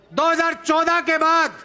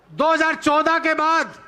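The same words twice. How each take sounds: The two takes are said the same way.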